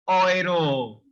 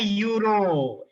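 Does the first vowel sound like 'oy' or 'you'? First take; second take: oy; you. First: The first vowel sounds like 'oy'. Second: The first vowel sounds like 'you'. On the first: The speaker calls it right. "It's euro" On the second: The speaker calls it wrong. "It's not a euro"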